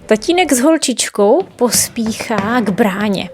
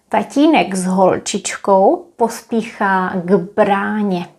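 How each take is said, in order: First: It is read at normal speed. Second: It is read slowly.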